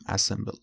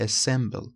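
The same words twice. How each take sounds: First: "assemble" starting with an open a, as in "cat"; wrong pronunciation. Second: "Assemble" starting with a short e, as in "bed"; correct pronunciation. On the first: Teacher showing students the common mistake, æ-SEM-ble. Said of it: "نمیگیم". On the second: Teacher showing students the right vowel, e-SEM-ble. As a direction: say "Assemble" with an e sound at the start, stress on the second syllable. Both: Shown as a demonstration.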